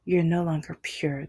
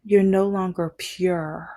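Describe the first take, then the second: First: Lightly voiced ex letting it sink in; repeated mock ex-girlfriend. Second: Lightly voiced ex drawing out the verdict; slow mock pronouncement; mock ex-girlfriend. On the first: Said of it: "That was what she said". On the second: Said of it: "she was like".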